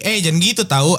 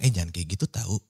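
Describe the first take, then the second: First: It is said at a somewhat higher pitch. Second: It is said at a normal pitch.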